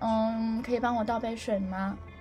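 It is said in a coy, coquettish tone.

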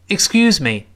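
The word me is weak and quickly passed over. The speaker calls it right. "这里我们不重读，会发生轻轻的弱化"

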